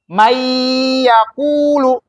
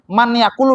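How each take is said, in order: First: The n blends into a doubled, nasalized y sound. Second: The n sound is pronounced separately before y. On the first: The speaker calls it right. "nunnya ini melebur menjadi ya" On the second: The speaker calls it wrong. "Nggak boleh kita bacanya man yakulu"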